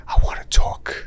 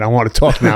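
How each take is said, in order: First: Whispered into a sleeping ear; unvoiced playful whisper, imitating himself. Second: Louder, fully voiced mock demand; imitating wide-awake chattiness. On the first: Husband to his sleeping wife late at night, whispering. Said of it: "I whisper in her ear". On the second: Wife up with coffee turning the tables, louder and chatty. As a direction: play his wife eager to chat. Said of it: "having a cup of coffee".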